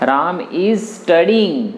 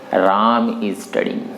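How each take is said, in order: First: The stress is on studying. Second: The stress is on Ram.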